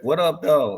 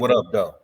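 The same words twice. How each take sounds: First: It is said in a light, friendly tone. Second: It is said in a hard, threatening tone. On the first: The speaker is greeting someone pleasantly. "like a jingle, that may be cool" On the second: The speaker is warning someone to back off. "with that thing behind you, that man back up a little bit"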